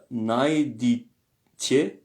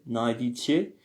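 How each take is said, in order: First: Najditje drawn out very slowly, split into syllables. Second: Said in the usual way. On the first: Shown as a demonstration. Teacher introducing a word to students, syllable by syllable. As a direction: say najditje slowly with a gap before the last part.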